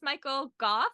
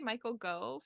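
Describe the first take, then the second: First: The surname is not said like 'go'. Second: The surname is said like the word 'go'. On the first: The speaker calls it right. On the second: The speaker calls it wrong.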